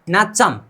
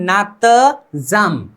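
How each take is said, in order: First: It is said smoothly with a ch sound. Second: It is split into two parts with t-j sounds. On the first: The speaker calls it right. "नीचे म आने पर इसका उच्चारण कभी फेरबदल नहीं होगा" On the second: The speaker calls it wrong. "नहीं तो पहले पहले पढ़ने पर हम नात जम"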